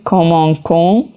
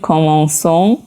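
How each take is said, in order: First: The consonant before the ending is a k sound. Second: The consonant before the ending is an s sound. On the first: The speaker calls it wrong. "باید بخونیم کامانکون" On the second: The speaker calls it right. "ما میخونیم کامانسون"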